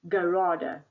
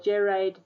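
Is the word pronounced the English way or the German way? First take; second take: German; English. First: It is pronounced the way a German speaker would. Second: It is pronounced the way an English speaker would. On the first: The speaker calls it right. "it's a German word" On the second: The speaker calls it wrong. "some students say gerade. No"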